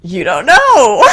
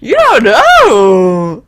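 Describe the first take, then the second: First: Higher, louder slow growl. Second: Louder, very slow growl; high growling voice. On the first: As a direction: growl it high and menacing. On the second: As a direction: drag the growl out slowly. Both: Acted. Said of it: "High growling".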